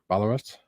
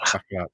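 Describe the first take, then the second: First: The double L is a plain English L. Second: The double L is the Welsh ll sound.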